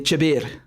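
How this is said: The word begins with a ch sound. This is how Iraqis say big. "in Iraq they'll say chabir"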